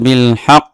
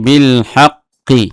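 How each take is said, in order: First: The word stops on the final consonant. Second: The word ends with a short vowel after it.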